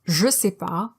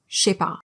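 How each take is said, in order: First: The ne is dropped, leaving three syllables. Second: Je fuses into sh, leaving two syllables. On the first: It sounds more casual. "becomes je sais pas" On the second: It is how it sounds in fast speech. "you'll often hear a simple sh"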